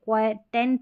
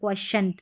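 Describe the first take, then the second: First: The middle consonant is a plain t sound. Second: The middle consonant is a sh sound. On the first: The speaker calls it wrong. "क्वेटेंट नहीं पढ़ना" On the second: The speaker calls it right.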